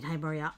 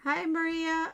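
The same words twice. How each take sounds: First: Said in the usual way. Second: "Maria" said high and stretched; "Hi, Maria" with a pitched-up "Maria"; wrong stress. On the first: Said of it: "I mean". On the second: Shown as a demonstration. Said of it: "I mean, hi, Maria".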